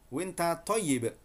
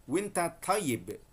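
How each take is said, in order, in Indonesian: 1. Bentuk percakapan Saudi, disingkat menjadi winta. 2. Bentuk percakapan Saudi, disingkat menjadi winta.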